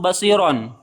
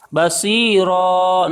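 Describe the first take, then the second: First: The word ends with an n sound. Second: The word ends on a vowel without n. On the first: The speaker calls it wrong. "not basiron" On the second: The speaker calls it right.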